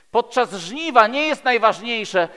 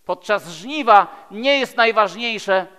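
No difference in how they are said.

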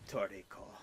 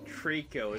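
First: Lightly attempted Japanese accent on Toriko. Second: Said in the usual way. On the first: Shown as a demonstration. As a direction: say Toriko in three syllables, Japanese-style. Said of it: "if I had the accent, it'd be like". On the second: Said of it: "my pronunciation of saying Trico".

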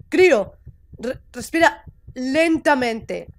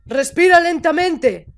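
First: Slow, measured reassurance; calming coaching. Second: Raised, insistent coaching; firmer repeat. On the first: Figure coaches the panicking character to breathe, calm and slow. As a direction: guide the breath slowly, keeping the voice down. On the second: Figure insists the panicking character breathe, firm and raised. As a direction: repeat the breathing order more forcefully. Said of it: "¡Para de gritarme". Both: Acted.

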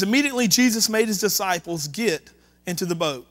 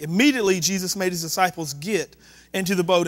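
First: Said in the usual way. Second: Immediately lifted in pitch and punched; stress on Immediately. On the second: A narrator's reading. Preacher pointing the congregation to one word, stress on Immediately. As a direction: hit the first word, Immediately, for emphasis. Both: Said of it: "Notice the word immediately".

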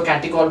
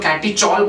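First: Catechol said with a hard k, "katty-kol"; k pronunciation. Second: Catechol said with a "ch" sound, "katty-chol"; ch pronunciation. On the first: Teacher giving own way of saying it, catechol with a hard "k". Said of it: "मैं तो catechol बोलता हूँ". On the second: Teacher showing how some people say it, catechol with a "ch". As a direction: say catechol with ch as in chalk. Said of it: "कुछ लोग catechol बोलते हैं". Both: Shown as a demonstration.

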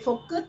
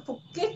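First: Said in the usual way. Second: "kít" said with an i vowel in place of "cứt"; mock accent pronunciation. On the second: Shown as a demonstration. Streamer taunts an opponent in the accent, "kít" for "cứt". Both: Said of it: "Nói phải nói đúng giọng".

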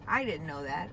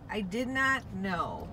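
First: Said in the usual way. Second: "not" in "I did not know" slow and punched; stress on NOT. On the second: Shown as a demonstration. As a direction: lean hard on "not", say it slowly.

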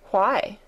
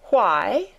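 First: Cold. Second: Louder, startled echo of why; indignant echo. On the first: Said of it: "said Mary coldly". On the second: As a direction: throw the word back, amazed. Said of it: "echoed Martha". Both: A narrator's reading.

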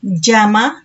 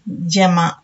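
First: జమ as the first take, firm and pitched up; contrasted pronunciation. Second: జమ as the second take, dropped lower; contrasted pronunciation. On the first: Teacher contrasting old and new sounds, జమ held up. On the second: Teacher contrasting old and new sounds, జమ pitched low. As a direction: sound out జమ on a low, closing note. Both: Shown as a demonstration. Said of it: "ఇలా వీటిని పలుకుతున్నాము".

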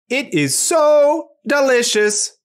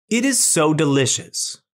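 First: High, slow robot delight; very happy, loud. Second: Said in the usual way. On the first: Shown as a demonstration. Robot showing it is very happy, loud voice. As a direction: stretch it out high with joy. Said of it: "loud voice to show that it is very happy". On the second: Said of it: "back to our reading robot".

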